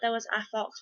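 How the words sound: The word 'a' is reduced and unclear. "we we would probably say it as"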